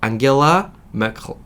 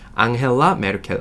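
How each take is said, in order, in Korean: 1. 이 이름은 독일식으로 발음해요. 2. 이 이름은 한국식으로 발음해요. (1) "독일어 원 발음을 봤는데 못 따라하겠더라고요" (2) "우리나라 언론에서는 메르켈 총리 내지는 앙헬라 메르켈이라고 하는데"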